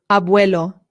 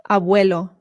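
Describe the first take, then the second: Both takes have the same delivery.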